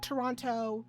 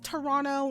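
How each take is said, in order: First: The second t is clearly pronounced. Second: The second t is dropped, like Toronno. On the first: The speaker calls it wrong. "not Toronto. The extra T is just there for shits and gigs" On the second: The speaker calls it right. "it is Toronto"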